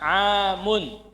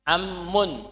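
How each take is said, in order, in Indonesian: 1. Vokal pertama panjang sebelum m tunggal. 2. Vokal pertama pendek sebelum m ganda. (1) "bukan amun" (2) "Dalam mengucapkan jangan salah. Amun"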